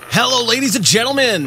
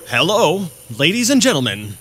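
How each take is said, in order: First: It is said with high, enthusiastic energy. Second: It is said with calmer, lower energy.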